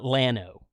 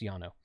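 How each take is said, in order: First: The name begins with an L sound. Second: The name begins with a Y sound. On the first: The speaker calls it wrong. "It's not Lano" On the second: The speaker calls it right. "double L in Spanish is pronounced like a Y"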